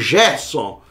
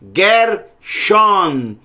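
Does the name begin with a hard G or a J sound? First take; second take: J sound; hard G. First: The name begins with a soft J sound. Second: The name begins with a hard G sound. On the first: The speaker calls it wrong. "Não queira fazer como no português. Lê aqui como Gerson" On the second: The speaker calls it right. "Nunca você deve ler o Gimel, que sempre será som de G"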